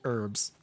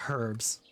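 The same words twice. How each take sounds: First: The h at the start is silent. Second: The h at the start is pronounced.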